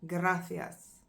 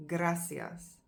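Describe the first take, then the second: First: Gracias with the th sound of Spain. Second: Gracias with a plain s sound; Latin American gracias. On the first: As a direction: say Gracias with a lisped c. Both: Shown as a demonstration. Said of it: "gracias rather than gracias".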